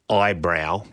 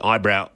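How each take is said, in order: First: The word is enunciated slowly with obvious effort. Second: The word is said naturally without exaggerated effort. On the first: "I really concentrate eyebrow, but you can tell how much effort went into that" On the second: "I'll try not to exaggerate ... it was wrong"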